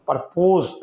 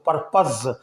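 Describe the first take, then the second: First: The second syllable has a full 'oh' vowel. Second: The second syllable has a short, reduced vowel. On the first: The speaker calls it wrong. "परपोज नहीं बोलेंगे" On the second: The speaker calls it right. "यहाँ इसको पर्पज पढ़ेंगे"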